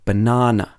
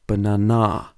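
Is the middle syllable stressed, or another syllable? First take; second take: middle; another. First: The stress is on the middle syllable. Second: The stress is not on the middle syllable. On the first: The speaker calls it right. "we say banana" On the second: The speaker calls it wrong. "and not banana"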